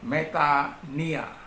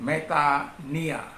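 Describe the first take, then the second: First: The middle is pronounced with an 'ee' sound. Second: The middle is pronounced with an 'ee' sound.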